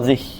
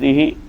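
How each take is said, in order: First: The word ends without any final vowel. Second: The final vowel is lengthened. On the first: "bil iskan, dengan sukun" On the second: "bil isba', maksudnya dengan memanjangkan zihi"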